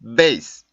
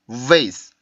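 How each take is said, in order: First: The first sound is stopped, like a b. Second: The first sound is voiced friction with pushed air. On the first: The speaker calls it wrong. "윗입발로 아랫입술을 물고 발음한 거예요" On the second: The speaker calls it right. "울림 소리, 마찰음의 소리인 밀어내는 공기가 나와 있었죠"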